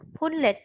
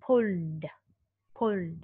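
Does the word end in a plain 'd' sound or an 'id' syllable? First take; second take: id syllable; d sound. First: The ending is an extra 'id' syllable. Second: The ending is a plain 'd' sound. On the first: The speaker calls it wrong. "sai là pull it" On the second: The speaker calls it right. "Phát âm là đờ mới đúng"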